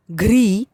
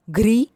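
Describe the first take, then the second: First: घ्री with a held ee; घ्री said as long "ghreee"; long vowel. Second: घ्री with a short i, rising; घ्री said as quick "ghri"; short vowel. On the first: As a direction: stretch the ee in घ्री. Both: Shown as a demonstration. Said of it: "बारह खड़ी के format में".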